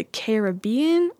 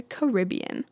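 First: "Caribbean" said care-uh-BEE-un; stress on BE. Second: "Caribbean" said kuh-RIB-ee-un; stress on RIB. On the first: Vlogger asking viewers, Caribbean stressed on BE. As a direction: stress the third syllable of "Caribbean". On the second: Vlogger offering the other option, Caribbean stressed on RIB. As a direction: stress the second syllable of "Caribbean". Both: Shown as a demonstration. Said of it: "Is it the Caribbean or the Caribbean".

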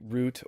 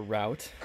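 First: "route" with an oo vowel; root pronunciation. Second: "route" with an ow vowel; rout pronunciation. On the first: Host asks guest about both sayings, "route" as root. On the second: Host asks guest about both sayings, "route" as rout. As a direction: say "route" to rhyme with "out". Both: Shown as a demonstration. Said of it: "how people say route or route".

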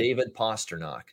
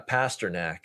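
First: "Pasternak" with ah sounds, PAH-ster-nock; own pronunciation of Pasternak. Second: "Pasternak" with short a's, PASS-ter-nack; the other pronunciation of Pasternak. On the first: Host showing his usual name, "Pasternak" as PAH-ster-nock. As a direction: say "Pasternak" to rhyme its end with knock. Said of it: "I've always said". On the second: Host echoing the announcers, "Pasternak" as PASS-ter-nack. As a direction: say "Pasternak" to rhyme its end with back. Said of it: "I've always said David Pasternak". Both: Shown as a demonstration.

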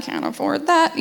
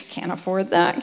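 First: "can't afford that" lifted high but soft; higher resigned repeat. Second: "Can't afford that" low and soft, sinking away; dropped disappointed aside. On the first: Wife retelling her Pinterest wishes, higher wry repeat. Scrolling nursery ideas, repeated. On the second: Wife retelling her Pinterest wishes, low resigned aside. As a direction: let "Can't afford that" fall flat in resignation. Scrolling nursery ideas, disappointed. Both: Retold or imitated.

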